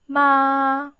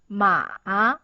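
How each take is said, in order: First: The pitch stays high and level throughout. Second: The pitch dips down and then rises. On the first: "It's in the highest line five. So find your highest key and then pronounce smoothly" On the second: "you have to go down firstly and go up"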